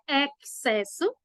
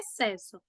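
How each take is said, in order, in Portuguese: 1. O x é pronunciado como ks. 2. O x não é pronunciado, soa só como s.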